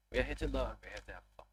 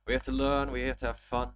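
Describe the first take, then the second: First: Said in the usual way. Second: Emphatic louder motto. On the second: Real, not acted. Motto repeated louder, more emphatic.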